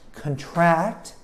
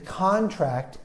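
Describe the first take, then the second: First: The stress is on the second syllable. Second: The stress is on the first syllable. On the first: It means to get something, like an illness. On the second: It means an agreement between two parties.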